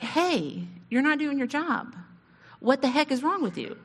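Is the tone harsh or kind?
kind. It is said in a kind, caring tone.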